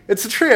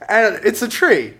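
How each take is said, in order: First: "tree" lifted into a rising, baffled question; can't believe it's only a tree; disbelieving. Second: Said in the usual way. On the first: Shown as a demonstration. Repeating to the audience, amazed it's just a tree.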